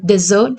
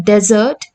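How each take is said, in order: First: "desert" said de-ZERT; last-syllable stress. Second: "desert" said DEZ-ert, slowly; first-syllable stress. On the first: Teacher explaining syllable stress, last-syllable stress on "desert". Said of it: "the stress is on last syllable". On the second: Teacher explaining syllable stress, first-syllable stress on "desert". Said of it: "the stress is on first syllable". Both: Shown as a demonstration.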